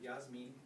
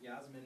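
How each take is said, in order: First: The name is said with an E vowel sound. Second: The name is said without an E vowel sound. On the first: This follows Spanish pronunciation. The speaker calls it wrong. "Yasmin with an E sound" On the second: This is the name's owner's own pronunciation. The speaker calls it right. "I think it was Yasmin"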